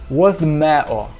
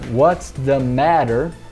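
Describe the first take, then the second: First: It is said in a Mancunian accent. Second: It is said in an American accent. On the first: "Em Manchester você escutaria" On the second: "que eu falaria em inglês americano"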